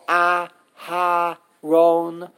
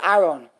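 First: The h sound is pronounced, said slowly. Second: The h sound is dropped completely. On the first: "if you say it slow" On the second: "They completely omit the hay"

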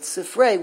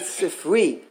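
First: The last vowel is an 'ay' sound. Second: The last vowel is an 'ee' sound. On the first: It refers to two books. "when you pronounce it sifrei with its tsere" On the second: It refers to one book. "If you would say sifri"

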